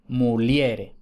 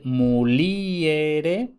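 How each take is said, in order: First: Muliere as mu-LYE-re, stress on E; vulgar diphthong muliere. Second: Muliere with a long stressed I, mu-LI-e-re; slow muliere, I and E in two syllables; classical hiatus muliere. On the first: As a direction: glide IE into one syllable in muliere. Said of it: "en latín vulgar será". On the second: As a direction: draw out the LI in muliere, then separate E. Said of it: "lo que en latín clásico es". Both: Shown as a demonstration.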